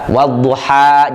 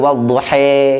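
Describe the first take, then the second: First: The word ends in an open a sound. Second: The word ends in a tilted e sound.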